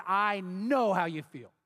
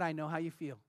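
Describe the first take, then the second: First: Slow, steady insistence, each word placed; firm, deliberate. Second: Soft, low, consoling words; gentle sympathy. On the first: Repeating it to the angry woman, slow and firm. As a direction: hold her gaze and say "I know how you feel" slowly and firmly. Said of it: "I looked her in the eye". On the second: Telling a grieving woman he understands, soft and low. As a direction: softly offer comfort, hushed. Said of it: "I said these words". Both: Retold or imitated.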